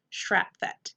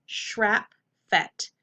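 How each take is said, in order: First: Shrap, fet run together; blended whole word. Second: Shrap, fet as separate beats; syllable by syllable. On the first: Teacher reading the whole word to students, blended. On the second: Teacher sounding out the word for students, syllable by syllable. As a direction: give SHRAP and FET each its own beat with a gap. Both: Shown as a demonstration. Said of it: "Whole word".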